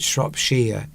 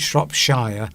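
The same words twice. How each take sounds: First: The last syllable sounds like "sheer." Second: The last syllable sounds like "shire." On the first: The speaker calls it right. "you pronounce it Shropshire, ear, sheer, at the end" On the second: The speaker calls it wrong. "You don't pronounce it Shropshire ... not shire"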